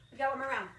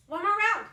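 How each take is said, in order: First: Said in the usual way. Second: Loud, high rally call. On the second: Real, not acted. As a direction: pump up the class.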